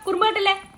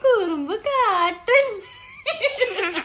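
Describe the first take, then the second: First: It is said in an angry, scolding tone. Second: It is said in a soft, gentle tone. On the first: The speaker calls it wrong. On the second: The speaker calls it right.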